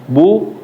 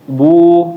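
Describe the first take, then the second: First: The vowel is held briefly. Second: The vowel is drawn out longer.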